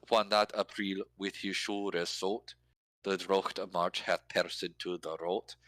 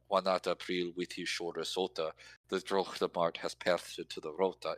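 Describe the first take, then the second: First: "shoulder salt" and "rot" said with no final e sounded. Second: "rota" with the final e sounded as an extra syllable; final e pronounced. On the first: Showing how the Chaucer line scans without final e. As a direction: drop the final e, keep the line in meter. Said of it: "scans better than". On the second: Showing the Chaucer line with every final e pronounced, extra syllables. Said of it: "extra garbage on the end". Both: Shown as a demonstration.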